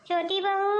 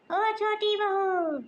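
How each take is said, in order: First: Calling out. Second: Higher, slow stretched call across the house; long drawn-out call. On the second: Mother-in-law hollering slowly for daughter-in-law. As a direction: drag out बहू as a long high call to the next room. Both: Acted. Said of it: "क्यों चिल्ला रही हो?".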